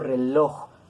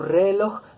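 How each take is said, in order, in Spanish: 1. El acento está en la última sílaba. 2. El acento está en la primera sílaba. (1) "decimos reloj, aguda con prosódico" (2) "No decimos reloj"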